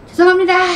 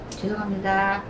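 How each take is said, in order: First: The apology sounds rude and disrespectful. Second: The apology sounds polite and humble. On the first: The speaker calls it wrong. "싸가지 없는 거지" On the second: The speaker calls it right. "말투도 이렇게"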